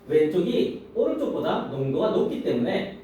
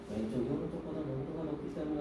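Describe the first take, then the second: First: The pitch rises and falls in a lively way. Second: The pitch stays flat in a dull monotone. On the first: The speaker calls it right. "어때? 억양이? ... 익사이팅하게 오르락 내리락하면" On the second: The speaker calls it wrong. "재미없어 이렇게 읽지 말고"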